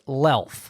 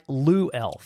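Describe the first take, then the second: First: The name is said as one syllable. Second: The name is said as two separate syllables. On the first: The speaker calls it right. "but it's pronounced Lelf" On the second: The speaker calls it wrong. "it looks like Lou Elf"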